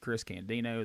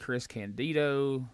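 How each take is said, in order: First: The last syllable starts with an n sound. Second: The last syllable starts with a d sound. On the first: The speaker calls it wrong. "They said Chris Candino" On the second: The speaker calls it right. "these guys hadn't been able to say Chris Candido"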